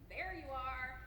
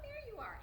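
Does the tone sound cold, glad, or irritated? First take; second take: irritated; glad. First: It is said in an exasperated, irritated tone. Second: It is said in a warm, glad tone. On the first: The speaker has been searching and is annoyed. "your mom when she's been looking at you for ten minutes" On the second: The speaker is happy the person came. "it was about tone"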